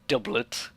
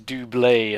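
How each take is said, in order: First: It is pronounced in a plain English way. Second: It is pronounced in a French-sounding way. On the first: The speaker calls it wrong. "and not doublet" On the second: The speaker calls it right. "It's got to have some pretentious French-sounding name"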